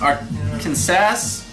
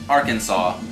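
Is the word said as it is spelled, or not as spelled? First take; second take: as spelled; not as spelled. First: The word is said the way it is spelled. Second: The word is not said the way it is spelled. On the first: The speaker calls it wrong. "It looks like" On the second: The speaker calls it right. "but it's pronounced"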